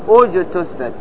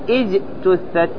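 First: The opening glottal stop carries a 'u' vowel. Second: The opening glottal stop carries an 'i' vowel. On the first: The speaker calls it right. "وإنما أقول أجتثت" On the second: The speaker calls it wrong. "ما سأقول اجتثت"

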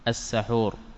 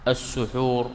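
First: The first syllable has the vowel a. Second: The first syllable has the vowel u. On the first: It names the food eaten before dawn. "بفتح السين" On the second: It names the act of eating before dawn. "بالضم"

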